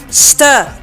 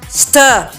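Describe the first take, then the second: No difference in how they are said.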